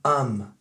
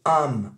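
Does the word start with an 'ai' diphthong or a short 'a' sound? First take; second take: short a; short a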